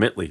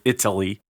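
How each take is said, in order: First: The first vowel sound is dropped. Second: The first vowel sound is clearly pronounced. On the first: This is how people talk in that neighborhood. "people always say I came from Italy. That's how they talk down there" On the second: Nobody in that neighborhood talks like this. "They don't say it, Italy. Nobody talks like that down there"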